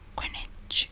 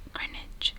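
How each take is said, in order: The two takes are said the same way.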